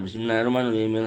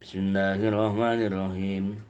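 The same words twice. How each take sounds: First: It is recited very quickly. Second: It is recited slowly and deliberately. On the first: The speaker calls it wrong. "cepet banget itu" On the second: The speaker calls it right. "pasti akan tartil bacanya"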